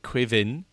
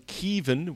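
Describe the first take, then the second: First: The name begins with a kw sound. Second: The name begins with a plain k sound. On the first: This is a regional way to say the name. "if you come from Munster... You pronounce it Quivin" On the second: This is another accepted way to say the name. "Keevan without the Quee at the beginning"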